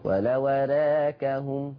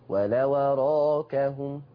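First: The vowel after r leans toward e. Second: The vowel after r is a fully open a.

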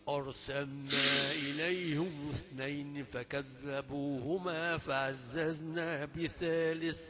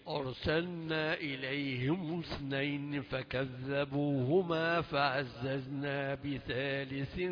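Both takes have the same delivery.

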